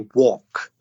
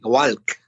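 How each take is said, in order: First: The L sound is silent. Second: The L sound is clearly pronounced. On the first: The speaker calls it right. "Say walk" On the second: The speaker calls it wrong. "you see the L, you want to pronounce it, right? You want to say walk, but it's not. Don't say that"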